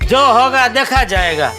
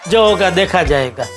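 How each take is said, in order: First: It is said heartily, with real feeling. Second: It is said flatly, without feeling. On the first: The speaker calls it right. "जरा दिल से बोल" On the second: The speaker calls it wrong. "ऐसे नहीं भाई"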